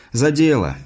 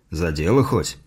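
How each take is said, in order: First: Said in the usual way. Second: Low-pitched father's question, lightly grunted; grunting father. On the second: A narrator's reading. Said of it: "хмыкнул отец". (низкий голос отца, с лёгким хмыканьем)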